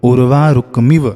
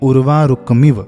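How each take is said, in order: The two takes are said the same way.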